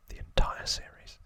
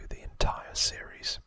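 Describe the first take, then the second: No difference in how they are said.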